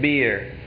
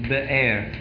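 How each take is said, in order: First: It is read like the English word beer. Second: It is said the Hebrew way, as be'er. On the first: This is how the transliteration misleads readers. The speaker calls it wrong. "you probably say it beer" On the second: This is closer to how the Hebrew word sounds. The speaker calls it right. "it could be like this"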